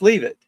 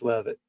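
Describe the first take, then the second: First: The first vowel is long, like 'leave'. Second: The first vowel is short, like 'lev'. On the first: The speaker calls it wrong. "That's leave it" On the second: The speaker calls it right. "It's it's Lev it"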